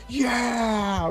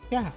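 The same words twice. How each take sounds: First: It is said with excitement. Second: It is said flatly, without excitement.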